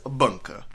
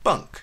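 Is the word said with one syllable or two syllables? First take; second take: two syllables; one syllable. First: The word is said as two syllables. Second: The word is said as one syllable. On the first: The speaker calls it wrong. "Two syllables if you mispronounce it as bunka" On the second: The speaker calls it right. "It is one syllable"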